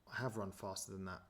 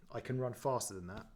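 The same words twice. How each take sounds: First: "have" stressed, the rest softer and falling. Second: Said in the usual way. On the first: Real, not acted. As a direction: lean on "have", then let the line drop. Corrects can to have run.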